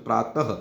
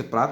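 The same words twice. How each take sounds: First: प्रातः said with a clear breathy h after the final a, pra-ta-h; right way. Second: प्रात said without the final h sound; wrong way. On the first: Teacher showing students the correct way, प्रातः with a final h. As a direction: let प्रातः end on an audible h puff for the visarga. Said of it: "बोलते कैसे?". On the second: Teacher showing students the wrong way, प्रात without the h. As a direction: clip प्रात short, ending on a plain t with no breath after it. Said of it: "प्रात नहीं बोलते". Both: Shown as a demonstration.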